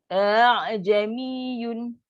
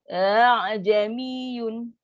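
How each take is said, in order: No difference in how they are said.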